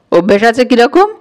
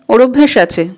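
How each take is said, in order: First: "অভ্যেস আছে কিরকম" rising steadily to the end; challenging echo question. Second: "অভ্যেস আছে" said as a statement, falling at the end; matter-of-fact answer. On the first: Brother challenges the girl's answer, "কিরকম" lifted in a questioning rise. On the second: Girl answers the angry brother, "অভ্যেস আছে" as a falling statement. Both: A narrator's reading.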